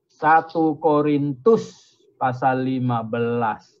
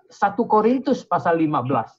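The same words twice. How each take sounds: First: Half-speed, low and measured; drawn-out announcement for note-takers; slow dictation. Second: Said in the usual way. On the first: Real, not acted. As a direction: spell out the reference word by word. Repeats reference slowly for listeners.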